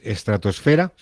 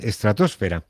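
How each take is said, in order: First: The stress falls on the syllable fe. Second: The stress falls on the syllable tos.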